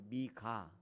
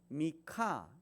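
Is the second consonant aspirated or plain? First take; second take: plain; aspirated. First: The second consonant is plain, without breath. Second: The second consonant is aspirated, with a puff. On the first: The speaker calls it wrong. "우리는 그냥 미가 좀 평이하게 번역을 했죠" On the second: The speaker calls it right. "히읗 발음이 약간 들어가게 ... 미카 이렇게 발음하는 게 맞는 것 같아요"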